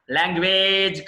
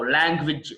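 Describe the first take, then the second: First: లాంగ్వేజ్ ending in a long "wayj"; mistaken pronunciation. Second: లాంగ్వేజ్ ending in a short "wij"; correct pronunciation. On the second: (లాంగ్వేజ్ చివర "విజ్" పొట్టిగా) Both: Shown as a demonstration. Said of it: "లాంగ్వేజ్ కాదు".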